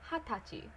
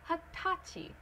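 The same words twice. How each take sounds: First: The stress is on the first syllable. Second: The stress is on the second syllable. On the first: The speaker calls it right. "Place it on the first syllable. ... Do hatachi" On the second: The speaker calls it wrong. "do not place it on the second one, like hatachi. Don't do that"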